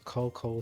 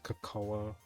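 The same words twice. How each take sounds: First: The word has an English pronunciation. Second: The word has a Spanish pronunciation. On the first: "in English is" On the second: "Spanish is"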